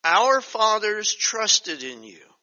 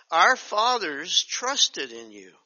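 First: Slow, louder, solemn verse; slow scripture reading. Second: Slow solemn rereading; slow scripture reading. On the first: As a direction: lean into each word slowly. Reads verse slowly. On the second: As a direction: read it again, weighty and slow. Rereads same verse. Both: Acted.

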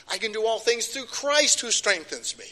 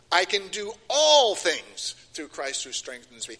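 First: Higher overall, CHRIST falling firmly; stress on CHRIST. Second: ALL pushed out louder in the line; stress on ALL. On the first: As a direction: land hard on Christ. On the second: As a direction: hit the word all. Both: Shown as a demonstration. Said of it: "I emphasize this".

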